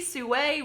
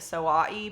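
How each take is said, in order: First: The name is said as soo. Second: The name is said as soh-eye. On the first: The speaker calls it right. "So that sounds better" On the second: The speaker calls it wrong. "I've been pronouncing it Soai because I'm illiterate"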